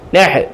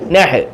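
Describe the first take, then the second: The two takes are said the same way.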